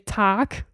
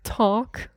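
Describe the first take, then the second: First: The vowel is an open 'ah' sound. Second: The vowel is rounded toward an 'aw' sound. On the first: The speaker calls it wrong. "so I would say tack" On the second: The speaker calls it right. "but you say more like talk. So it's a bit more in the O direction"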